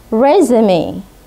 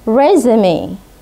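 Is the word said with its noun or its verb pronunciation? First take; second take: noun; noun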